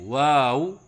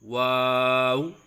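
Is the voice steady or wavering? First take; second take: wavering; steady. First: The voice wavers up and down during the word. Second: The voice stays steady throughout the word. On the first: The speaker calls it wrong. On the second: The speaker calls it right.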